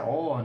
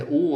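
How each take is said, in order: First: O said as an open vowel; O with open sound. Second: O said as a closed vowel; O with closed sound. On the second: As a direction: say O closed like o circunflexo. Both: Shown as a demonstration. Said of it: "várias distinções aí sobre o".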